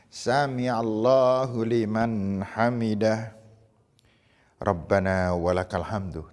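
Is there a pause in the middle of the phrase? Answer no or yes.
yes. There is a pause after hamidah. Each movement of the prayer is done calmly. The speaker calls it right. "Setiap gerakan mesti kasih jeda"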